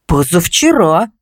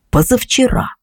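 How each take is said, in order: First: Slow, hesitant, rising answer; unsure. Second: Said in the usual way. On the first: A narrator's reading. Neighbour recalls when she saw the light, unsure. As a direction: draw it out, not quite sure. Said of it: "неуверенно ответила она".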